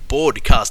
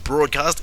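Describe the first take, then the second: First: The first part sounds like 'bored'. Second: The first part sounds like 'broad'. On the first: The speaker calls it right. "the Dota show is called Dota two Broadcast" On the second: The speaker calls it wrong. "not broadcast"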